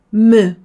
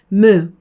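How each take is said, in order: No difference in how they are said.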